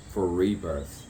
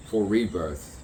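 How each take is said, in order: Both takes have the same delivery.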